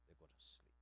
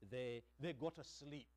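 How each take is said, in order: First: Breathy whisper, barely there. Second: Said in the usual way. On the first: Shown as a demonstration. Preacher repeating the poet's line to the congregation, whispered. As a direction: hush it like lulling worries to sleep.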